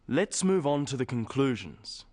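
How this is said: The voice falls at the end.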